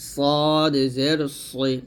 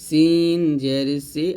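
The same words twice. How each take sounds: First: "সদ" with a thick, full s, drawn very slowly; heavy Arabic sad in "সদ", very slow. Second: "সিন" with a thin, light s, said slowly; light Arabic seen in "সিন". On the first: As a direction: drawl "সদ জের সই" heavy and full. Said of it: "সদ হবে মোটা করে". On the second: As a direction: say "সিন জের সি" light and forward. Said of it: "সিনটা মোটা পাতলা হবে আর সদ মোটা হবে". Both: Shown as a demonstration.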